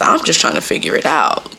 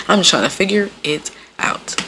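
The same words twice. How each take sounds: First: Said in the usual way. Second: "figure... it... out" spaced word by word; deliberate phrasing. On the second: Real, not acted. Repeating herself to listeners after laughing, deliberately spaced out. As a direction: pause before IT and before OUT.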